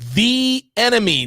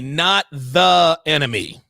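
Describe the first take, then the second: First: The word 'the' is said as 'thee'. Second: The word 'the' is said as 'thuh'. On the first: The speaker calls it right. "you almost always say the" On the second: The speaker calls it wrong.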